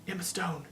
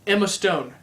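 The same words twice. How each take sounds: First: Emma Stone breathed out much softer, in awe; hushed, awed. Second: Said in the usual way. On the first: Real, not acted. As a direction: say Emma Stone like she takes your breath away. Swoons over Emma Stone.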